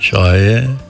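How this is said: It is said wearily, ironically, like a question.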